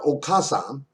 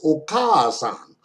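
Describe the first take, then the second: First: The vowel after 'ok' is short. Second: The vowel after 'ok' is held long. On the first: The speaker calls it wrong. "It's not okasan" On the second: The speaker calls it right. "it's okasan"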